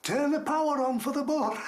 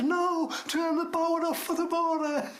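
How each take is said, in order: First: High-pitched call back; retold holler, stretched high; imitated distant shout. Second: High, insistent correcting shout; imitated shout, pitched way up; retold shouting. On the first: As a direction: shout it back like someone down the tunnel. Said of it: "this voice between me and the gate shouting". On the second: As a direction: holler it back to correct a mishearing. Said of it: "I'm shouting".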